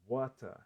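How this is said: British accent, with the final r dropped. "Que é a pronúncia britânica"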